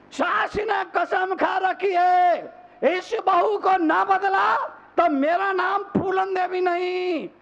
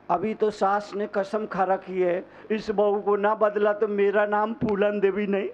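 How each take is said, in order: First: High-pitched, declaimed oath of a mother-in-law; thundering mock vow. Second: Said in the usual way. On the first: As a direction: proclaim the vow high, like a fiery preacher. Vow repeated at full force. (ऊँचे सुर में सास की ललकार भरी कसम)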